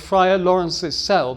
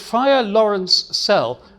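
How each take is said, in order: First: An extra syllable follows Lawrence before cell. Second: Lawrence runs straight into cell, no added syllable. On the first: The speaker calls it wrong. "that adds an extra sound to the line" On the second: The speaker calls it right. "it's Friar Lawrence Sell"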